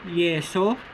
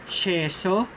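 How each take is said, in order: First: The consonant sounds like English y. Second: The consonant sounds like English sh. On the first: "The Y-like or the letter I-like sound" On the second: "The S H-like sound"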